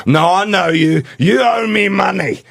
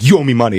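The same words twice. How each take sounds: First: Retold yell. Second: Said in the usual way. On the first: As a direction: yell it at him, insistent and slow. Homeless guy insists, getting aggressive.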